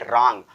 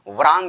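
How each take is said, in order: First: The word starts directly with an r sound. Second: The word starts with a w sound before r. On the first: The speaker calls it right. "इसको हम पढ़ेंगे रांग" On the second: The speaker calls it wrong. "वरांग नहीं पढ़ेंगे"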